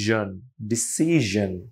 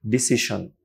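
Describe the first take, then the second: First: ডিসিশন said slowly with the middle sound as zh, disi-zhon; decision with zh. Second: Said in the usual way. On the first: Shown as a demonstration. Teacher correcting the pronunciation of decision, slow. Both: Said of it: "এটার উচ্চারণ হবে".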